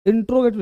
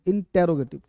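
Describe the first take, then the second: First: "इंट्रोगेटिव" with "ट्रो" run together as one syllable; mistaken pronunciation. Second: "इंटेरोगेटिव" with "टे" and "रो" as separate syllables; correct pronunciation. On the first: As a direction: say "इंट्रोगेटिव" as in-tro-ge-tiv, dropping the "te". ("इंट्रोगेटिव" में "टे" छोड़कर "ट्रो" बोलें) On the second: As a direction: say "इंटेरोगेटिव" as in-te-ro-ge-tiv, keeping the "te". ("इंटेरोगेटिव" में "टे" का पूरा उच्चारण) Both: Shown as a demonstration. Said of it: "इंट्रोगेटिव नहीं".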